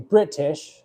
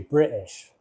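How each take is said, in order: First: The T is pronounced very strongly. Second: The T is dropped or barely pronounced. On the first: "an overemphasized T, like almost like royalty British" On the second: "other people say British"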